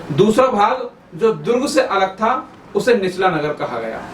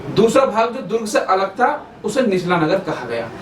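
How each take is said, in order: No difference in how they are said.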